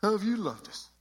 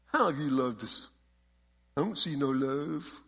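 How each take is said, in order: First: Put-on much higher, sneering punk kid; exaggerated punk kid whine. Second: A lightly voiced sulky punk kid; hint of a whiny teen asking back; mild punk attitude. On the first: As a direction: throw the question back like a snotty teen. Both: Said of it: "imagine every one of these questions in that kind of a punk voice".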